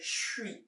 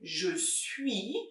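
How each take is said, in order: First: The words merge into one quick syllable. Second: Both syllables are said fully and separately.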